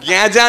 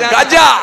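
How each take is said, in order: First: The first vowel is a nasal 'e' sound. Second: The first vowel is an open 'a' sound. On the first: The speaker calls it wrong. "গেঁজা না" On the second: The speaker calls it right.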